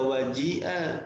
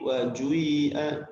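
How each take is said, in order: First: The vowel after j is a plain i. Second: The vowel after j blends i with u. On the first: This is the usual reading. "Jadi tidak waji'a" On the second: This is the reading of other reciters. "tapi wajui'a karena digabungkan antara ... kasrah dengan dhammah"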